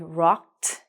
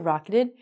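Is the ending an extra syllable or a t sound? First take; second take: t sound; extra syllable. First: The ending is a short t sound. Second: The ending is an extra syllable. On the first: The speaker calls it right. "We have to say rocked" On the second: The speaker calls it wrong. "We don't say rocketed"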